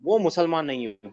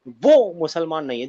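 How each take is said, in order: First: The sentence is said plainly, without extra force. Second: The sentence is said with added vocal emphasis.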